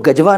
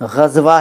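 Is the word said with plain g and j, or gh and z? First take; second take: g and j; gh and z. First: It begins with plain g and has j. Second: It begins with throaty gh and has z. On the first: The speaker calls it wrong. "ग़ज़वा को गजवा ना कहें" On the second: The speaker calls it right. "ग़ज़वा है, हिंदी में ग के नीचे भी बिंदु है, नुक्ता है, ज के नीचे भी नुक्ता है"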